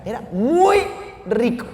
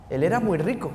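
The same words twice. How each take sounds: First: Muy lifted high, then a pause before rico; preacher stressing that Zaqueo was muy rico. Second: Said in the usual way. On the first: Shown as a demonstration. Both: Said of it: "el Evangelio especifica".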